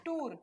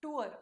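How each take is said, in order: First: "tour" as one syllable, "toor"; "tour" with no glide before the r; wrong pronunciation. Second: "tour" as "too-er", gliding vowel; "tour" with a schwa before the r; correct pronunciation. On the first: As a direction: say "tour" with a pure long oo. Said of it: "It is not". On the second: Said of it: "it is". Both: Shown as a demonstration.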